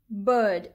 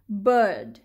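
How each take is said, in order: Both takes have the same delivery.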